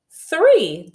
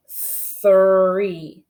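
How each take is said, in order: First: "Three" quick, much higher and louder; faster blend. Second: "Three" blended slowly, a little louder; blended word. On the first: Teacher speeding up the blend for kindergartners. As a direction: snap the sounds together fast. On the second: Teacher blending three for the class. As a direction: blend the sounds into one word. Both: Shown as a demonstration. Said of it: "say 'em a little bit faster".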